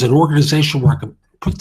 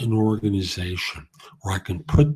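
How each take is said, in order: First: It is said quickly and nervously, with hesitations. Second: It is said slowly and calmly, sounding sincere. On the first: The speaker may not mean what they say. The speaker calls it wrong. "it's not as believable" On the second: The speaker believes what they are saying. The speaker calls it right. "when you sound sincere"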